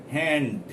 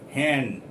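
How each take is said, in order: No difference in how they are said.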